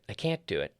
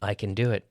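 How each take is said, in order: First: CAN'T as the main beat, then falling; stress on CAN'T. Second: CAN light, beat moving to DO; unstressed CAN. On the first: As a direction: hit CAN'T. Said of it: "we stress the negative". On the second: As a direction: slide over CAN to DO. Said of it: "we don't normally stress the affirmative". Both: Shown as a demonstration.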